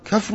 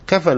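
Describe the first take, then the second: First: The word is said kafn, with no middle vowel. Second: The word is said kafan, with two open syllables. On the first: "بهذه القراءة الجديدة" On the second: "حسب ما سمعناه وصار تعودنا عليه"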